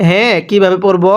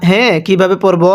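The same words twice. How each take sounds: No difference in how they are said.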